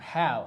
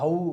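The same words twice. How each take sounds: First: The vowel is said with a wide-open mouth. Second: The vowel is said with a narrow mouth. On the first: The speaker calls it right. "വായൊക്കെ നമ്മൾ വലിച്ച് കീറി പറയണം" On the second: The speaker calls it wrong. "അല്ലാതെ നമ്മളെങ്ങനെയാണ് പറഞ്ഞത്?"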